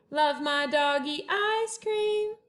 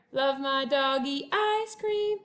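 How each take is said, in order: Both takes have the same delivery.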